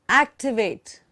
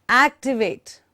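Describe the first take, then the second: Both takes have the same delivery.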